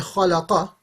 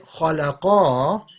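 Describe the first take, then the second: First: The final vowel is short. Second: The final vowel is drawn out long. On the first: One man created. "it means he created" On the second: Two people created. "it means them two created"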